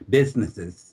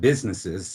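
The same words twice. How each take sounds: First: The s sounds are lisped like th. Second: The s sounds are clear and hissing. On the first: The speaker calls it wrong. "I had a really, really bad lisp" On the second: The speaker calls it right. "instead of businesses"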